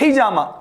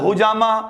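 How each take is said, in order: First: The first vowel after h is an i. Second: The first vowel after h is a u. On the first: The speaker calls it right. "हम कहते हैं हिजामा, H आई" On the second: The speaker calls it wrong. "H यू बोल रहे हैं"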